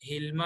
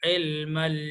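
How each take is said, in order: First: The word begins with a breathy h sound. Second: The word begins with a tight throat 'ayn sound. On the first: The speaker calls it wrong. "ഹിൽമ എന്നൊന്നും ആവരുത്" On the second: The speaker calls it right. "ഈ ഐന് ശരിക്കും ശ്രദ്ധിക്കണം"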